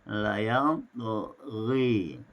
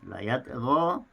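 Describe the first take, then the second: First: The final vowel leans toward 'e'. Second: The final vowel is an open 'a'.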